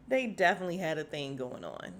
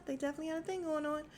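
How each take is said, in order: First: Said in the usual way. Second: Fast, high, through laughter; high giggly repeat. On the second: Real, not acted. Vlogger repeating the gossip, high and giggling. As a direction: say it again giggling. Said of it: "And, yeah".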